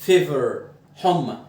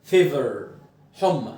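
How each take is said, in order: Both takes have the same delivery.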